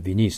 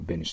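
First: The first vowel sounds like 'ih'. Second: The first vowel sounds like 'eh'. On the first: "ビニースだけど発音はね" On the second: "マーチャントベニスだけど"

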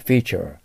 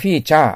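First: The ending has an open, throaty English vowel. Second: The word is said with Japanese katakana sounds. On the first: The speaker calls it right. "ベロを下に落として喉の奥をお医者さんに見せる感じでして、あーと言わないといけません" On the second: The speaker calls it wrong. "これをフィーチャーと言ったらダメです"

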